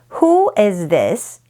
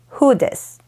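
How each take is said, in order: First: Every word is said fully and separately. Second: The words are reduced and run together.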